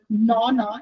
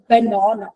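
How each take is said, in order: First: The first syllable is left out. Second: All three syllables are pronounced. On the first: "omission is where a child will leave out sounds" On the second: "instead of a banana"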